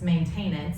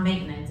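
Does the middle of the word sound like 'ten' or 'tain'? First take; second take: tain; ten. First: The middle syllable sounds like 'tain'. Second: The middle syllable sounds like 'ten'. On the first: This is the mispronunciation stuck in the speaker's head. The speaker calls it wrong. "it's maintenance, and I hate it every single time" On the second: This is the usual way to say it. The speaker calls it right. "It's not maintenance"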